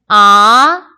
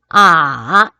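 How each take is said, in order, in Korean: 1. 음높이가 중간에서 높게 올라갑니다. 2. 음높이가 낮게 내려갔다가 올라갑니다. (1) "이" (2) "삼"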